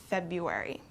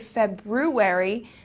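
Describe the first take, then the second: First: The first R is dropped. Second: The first R is clearly sounded. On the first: The speaker calls it right. "This R kind of goes away and we pronounce it February" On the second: The speaker calls it wrong. "we don't pronounce it as it's written. We don't say February"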